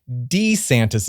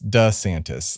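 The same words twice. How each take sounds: First: The first syllable sounds like 'dee'. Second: The first syllable sounds like 'duh'. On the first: This was how the family originally said the name. "Apparently it was D, D E E ... is how they had originally pronounced it" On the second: This is how everyone says the name now. "So we all call him Ron DeSantis"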